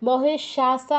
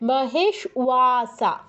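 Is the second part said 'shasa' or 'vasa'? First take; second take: shasa; vasa. First: The second part starts with a sh sound. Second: The second part starts with a v sound. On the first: The speaker calls it wrong. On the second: The speaker calls it right.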